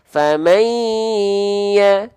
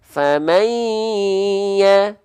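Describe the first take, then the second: The two takes are said the same way.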